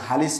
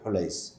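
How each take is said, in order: First: The name is said as Halis. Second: The name is said as Hulais. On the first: The speaker calls it wrong. "এখানে হালিস লেখা আছে" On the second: The speaker calls it right. "তাসগীর করেই পড়তে হবে"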